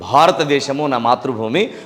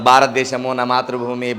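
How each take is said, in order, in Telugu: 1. 'bh' ధ్వనులను ఊపిరి విడుదలతో పలుకుతారు. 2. 'bh' ధ్వనులను ఊపిరి విడుదల లేకుండా పలుకుతారు.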